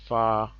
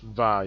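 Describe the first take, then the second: First: The syllable begins with an F sound. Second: The syllable begins with a V sound. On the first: The speaker calls it right. "the right way to pronounce it is fa" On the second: The speaker calls it wrong. "it's not supposed to be pronounced that way"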